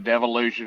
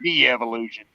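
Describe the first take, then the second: First: The word is said as devolution. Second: The word is said as de-evolution. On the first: It follows the other person's pronunciation. "however you want to pronounce it" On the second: This is how country people say it. "I'm a country boy. We say de-evolution"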